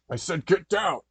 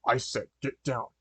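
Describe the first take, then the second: First: Loud, raised-pitch robber's yell; yelled order. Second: Said in the usual way. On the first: Acted. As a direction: yell it as a threat. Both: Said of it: "the overheard man in the mask yelled".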